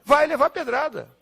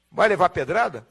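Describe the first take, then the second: First: "Vai levar pedrada." answered high and firm, falling at the end; emphatic answer. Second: "Vai levar pedrada?" asked with a rising question tune; rhetorical question. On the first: ("Vai levar pedrada." como resposta firme e enfática) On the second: ("Vai levar pedrada?" como pergunta retórica) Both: Shown as a demonstration.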